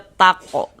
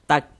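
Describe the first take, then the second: First: The final k bounces with a vowel-like echo. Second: The final k ends with flowing breath. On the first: The speaker calls it wrong. "Tapi jangan dibaca tako" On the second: The speaker calls it right. "ada nafas yang mengalir ketika kita mengucapkannya"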